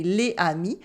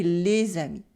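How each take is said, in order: First: "les amis" unlinked, silent S in "les"; missing liaison. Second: "les amis" linked with a Z; correct liaison. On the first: Teacher showing what not to say, "les amis" without liaison. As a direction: say "les amis" as lay ah-mee, no Z. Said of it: "we don't say les amis". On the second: Teacher showing what we say, "les amis" with Z liaison. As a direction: say "les amis" as one run, lay-zah-mee. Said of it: "we say les amis". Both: Shown as a demonstration.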